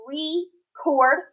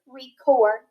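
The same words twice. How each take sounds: First: Record drawn out, rising; slow record with a rise; record split. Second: Said in the usual way. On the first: Shown as a demonstration. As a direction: read record slowly, rising. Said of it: "multisyllabic word".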